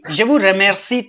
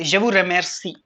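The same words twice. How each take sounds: First: The R is a soft French R sound. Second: The R is a harsh kh sound. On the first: The speaker calls it right. "il dit merci" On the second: The speaker calls it wrong. "He never say"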